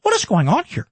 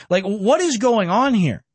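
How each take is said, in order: First: Lightly voiced incredulous pundit, pitched up; a hint of an outraged talk-show host; Tucker impression. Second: Said in the usual way. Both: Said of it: "That's my Tucker impression".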